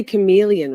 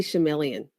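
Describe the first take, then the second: First: Chameleon said "kuh-MEE-lee-un", hard k; standard pronunciation. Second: Chameleon said "sha-MELL-ian", soft sh; own mispronunciation. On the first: Quoting how viewers say it, chameleon as "kuh-MEE-lee-un". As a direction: say chameleon with a k and a long ee. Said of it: "You say chameleon". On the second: Telling viewers her own way, chameleon as "sha-MELL-ian". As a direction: say chameleon with sh and a short e. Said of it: "I say chameleon". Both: Shown as a demonstration.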